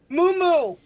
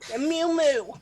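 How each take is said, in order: First: It is said with a Filipino pronunciation. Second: It is said in an exaggerated white American accent.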